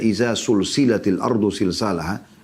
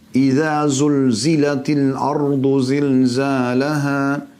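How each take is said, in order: First: The repeated consonants are hissing s sounds. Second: The repeated consonants are buzzing z sounds. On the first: When the earth is joined together. The speaker calls it wrong. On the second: When the earth is shaken violently. The speaker calls it right.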